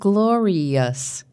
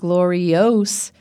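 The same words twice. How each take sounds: First: The unstressed vowel is reduced to a schwa. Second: The unstressed vowel is said as a full vowel. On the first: "but glorious" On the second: "It's not glorious"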